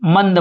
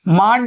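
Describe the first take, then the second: First: The name is said as Mand. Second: The name is said as Maand. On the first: "कहीं कहीं ऐसे मंद बोलते हैं" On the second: "मांड इसको चाहे बोलो आप"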